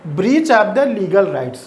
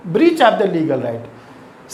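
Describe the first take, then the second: First: Said in the usual way. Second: Breach of the legal right drawn out very slowly word by word; slow dictation. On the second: Shown as a demonstration. Teacher dictating the meaning very slowly to students. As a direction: repeat it slowly so students can write it down. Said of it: "repeated for dictation".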